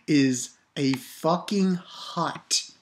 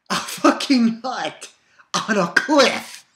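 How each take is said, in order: First: Fucking drawn out slowly; fucking stretched out and punched; stress on fucking. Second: Fucking hit higher and louder, slow; fucking hut on a cliff, punched; louder stressed fucking hut. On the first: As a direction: lean hard on fucking, slow. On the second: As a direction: repeat it with more punch. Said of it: "repeated louder". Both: Real, not acted.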